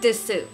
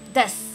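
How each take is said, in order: First: The final u vowel is clearly pronounced. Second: The final u is dropped, ending in s. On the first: The speaker calls it wrong. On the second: The speaker calls it right. "devoiced is su, so that it sounds more like s"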